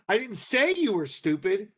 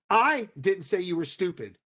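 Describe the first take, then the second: First: The stress falls on the word say. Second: The stress falls on the word I. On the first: It was expressed some other way, not spoken. "but I did write it on the bulletin board" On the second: Someone else said it. "Your brother did"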